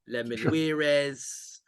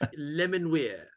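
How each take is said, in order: First: The name ends with an extra 'ez' syllable. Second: The name ends with a plain 'weer' sound. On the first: The speaker calls it wrong. "it's a bit Spanish, isn't it?" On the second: The speaker calls it right. "how I pronounce it. And and I, I think that's right"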